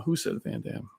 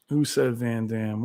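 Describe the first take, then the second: First: Quiet. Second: Said in the usual way. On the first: Real, not acted.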